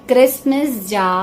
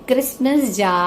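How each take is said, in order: No difference in how they are said.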